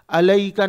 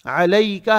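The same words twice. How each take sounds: First: अलैका starting on a plain a, no ayn; wrong plain vowel. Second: अलैका opening on a squeezed throat ayn; correct ayn. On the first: Teacher shows what not to say, missing ayn. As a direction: drop the throat ayn from अलैका. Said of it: "अलैका नहीं कहेंगे". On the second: Teacher gives the right word, throat ayn. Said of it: "आइन भी अंदर से निकालना है". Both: Shown as a demonstration.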